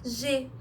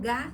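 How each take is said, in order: First: It is a soft zh sound, as in gente. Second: It is a hard g sound, as in gato. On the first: "no gente ele dá o som de G" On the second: "no gato o G dá o som de G"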